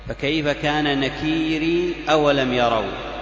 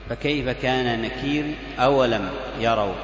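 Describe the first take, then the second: First: Nakir ends with a long ee before the next word. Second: Nakir ends with a short i before the next word. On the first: "بإضافة ياء وصلا" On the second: "بالكسر فقط ... هذا بالوصل"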